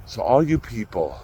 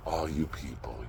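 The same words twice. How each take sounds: First: Said in the usual way. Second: Quiet repeat. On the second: Shown as a demonstration.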